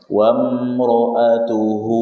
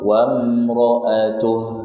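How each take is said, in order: First: The final vowel is held for two beats. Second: The final vowel is dropped, ending on a bare h. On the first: The reciter continues without pausing. "Kalau disambung dua harokat" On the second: The reciter pauses at this word. "kalau berhenti ya hanya sukun"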